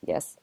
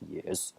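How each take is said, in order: First: Failed try at a little squirrel voice; attempted squirrel voice. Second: Deep-voiced crooner squirrel, softly; a soul singer. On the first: Squirrel answering the player who fed it, half-hearted squirrel voice. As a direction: try for a squirrel, not managing high. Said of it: "my voice doesn't go high enough for a squirrel voice". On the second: Squirrel answering the player, mock crooner voice. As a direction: drop it low for a smooth squirrel. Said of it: "you're gonna get a soul singer squirrel".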